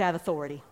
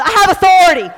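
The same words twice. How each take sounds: First: Low, soft statement of authority; subdued declaration. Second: Raised, forceful rallying call; emphatic declaration. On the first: Leading congregation in a first try, subdued. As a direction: say it low and understated. First call-out, before urging more force. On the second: Leading congregation in repeating it, emphatic. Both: Shown as a demonstration.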